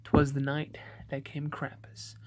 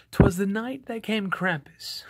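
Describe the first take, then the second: First: Said in the usual way. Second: Dramatic, higher-pitched opening of a spooky poem; scary poem reading. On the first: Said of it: "I'm going to read you that poem". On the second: Acted. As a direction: launch into a scary Christmas tale in verse. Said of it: "reading voice".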